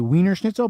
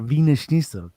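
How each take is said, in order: First: The first word begins with a W sound. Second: The first word begins with a V sound. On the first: This is how Americans say it. The speaker calls it wrong. "people in America will say" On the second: This is how it is really said. The speaker calls it right. "but it's actually a"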